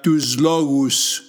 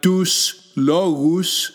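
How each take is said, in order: First: The first word ends with a z sound. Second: The first word ends with an s sound. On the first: "when the two words are joined together in speech, the sigma becomes z" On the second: "we have tus logus"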